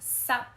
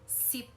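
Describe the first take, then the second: First: The word has an open 'ah' vowel. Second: The word has a close 'ee' vowel. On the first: This is the Cantonese form of the word. "sup is ten" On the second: This is the Taishanese form of the word. "sip for ten"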